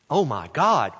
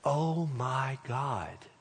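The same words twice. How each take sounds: First: It sounds like an exclamation of disbelief. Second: It sounds like a reverent address to God.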